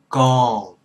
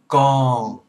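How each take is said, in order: Both takes have the same delivery.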